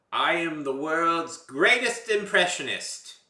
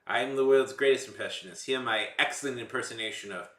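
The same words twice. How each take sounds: First: Loud, high, slow boastful proclamation; big hammed-up stage introduction; grand showman announcement. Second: Brisker, loud comedy-bit introduction; showman introduction. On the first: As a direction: announce it grandly, stretching it out for a comedy bit. Opening a self-styled favourite comedy bit. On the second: Pretend. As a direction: introduce the act with raised, confident projection. Second take of the bit's introduction.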